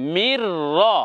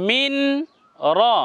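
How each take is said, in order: First: The n merges completely into the r. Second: The n is sounded separately before the r. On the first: The speaker calls it right. "তেলাওয়াতের নিয়ম হবে এইভাবে" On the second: The speaker calls it wrong. "এমন নয় মিন র ... এটা নয়"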